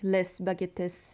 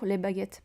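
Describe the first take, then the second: First: The final S sounds are pronounced. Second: The final S sounds are silent. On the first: The speaker calls it wrong. "people just read it like les baguettes" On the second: The speaker calls it right. "It's l'amour les baguettes Paris"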